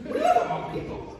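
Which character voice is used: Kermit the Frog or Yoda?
Yoda. It is said in a Yoda voice. "can you do Yoda?"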